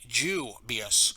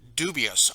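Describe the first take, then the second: First: It is said with an Irish or British pronunciation. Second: It is said with an American pronunciation. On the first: The speaker calls it wrong. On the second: The speaker calls it right. "I always say dubious"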